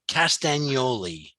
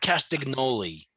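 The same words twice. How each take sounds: First: The G sound in the name is silent. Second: The G sound in the name is pronounced. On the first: The speaker calls it right. "Don't say the G" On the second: The speaker calls it wrong. "Don't say the G. It's not Castagnoli"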